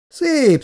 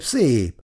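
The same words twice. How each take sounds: First: Szép flung up very high and loud; mock-admiring, high Szép; a sarcastic look round the bar; ironic praise. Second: Said in the usual way. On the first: A narrator's reading. Anti looks round the new bistro.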